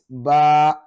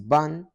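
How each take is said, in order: First: The syllable ends on a long open vowel. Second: The syllable ends with an n sound. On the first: The reciter pauses or stops here. "whenever it is found at the end ... It will be pronounced as alif" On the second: The recitation continues without stopping. "when it is found in the middle ... it will be pronounced like this"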